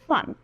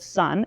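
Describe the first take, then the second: First: The s is lisped, tongue between the teeth. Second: The s is clear, tongue behind the teeth. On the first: "interdental lisp where your tongue comes out the front of your mouth" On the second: "instead of sun"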